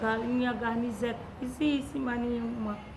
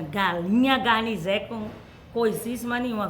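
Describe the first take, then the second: First: It is said in a sad voice. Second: It is said in a happy voice. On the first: "Com muita tristeza" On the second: "Com muita alegria"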